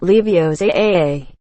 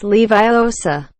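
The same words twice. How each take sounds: First: LEVIOSA slowly, stressed at the end, lee-vee-oh-SAA; wrong Leviosa. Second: LEVIOSA slowly, lee-vy-OH-sa; correct Leviosa. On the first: Quoting a correction with apology, slow wrong LEVIOSA. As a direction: drag out the final A of LEVIOSA. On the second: Quoting a correction with apology, slow lee-vy-OH-sa. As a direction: stretch LEVIOSA with stress on the O. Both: Acted. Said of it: "not Leviosa".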